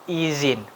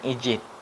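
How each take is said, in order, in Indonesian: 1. Konsonan di tengah adalah bunyi 'z'. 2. Konsonan di tengah adalah bunyi 'j'. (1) "Yang benar yaitu izin" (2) "bukan izin"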